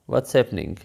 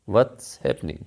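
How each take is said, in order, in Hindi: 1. What और is एक ही syllable में मिल जाते हैं। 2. What और is एक ही सिलेबल में मिल जाते हैं।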